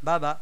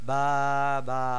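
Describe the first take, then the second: First: The two syllables are said quickly together. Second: The two syllables are said slowly and separately. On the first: The speaker calls it right. "হরকতের উচ্চারণ তাড়াতাড়ি করতে হয়" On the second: The speaker calls it wrong. "নট বা বা"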